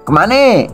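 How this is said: The word ends with an e vowel. "kalau di Bangka kemana eh"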